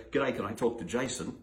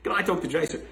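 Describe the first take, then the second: First: Plain phone caller. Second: Can I talk to Jason, pitched higher and louder; mock eager caller asking for Jason by name; brighter phone caller. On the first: Retold or imitated. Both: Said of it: "This is a true story".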